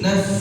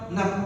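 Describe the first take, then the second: First: The word ends with a blown f sound. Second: The word ends with a p sound. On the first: The speaker calls it right. "Mesti naf" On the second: The speaker calls it wrong. "diganti pakai p. ... Nah itu salah"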